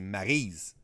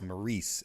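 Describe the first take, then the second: First: The name is pronounced the French Canadian way. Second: The name is pronounced the English way. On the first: "it's a very French Canadian name. You'd say Maryse" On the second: "no one's gonna know who I'm talking about. You know, it's Maurice"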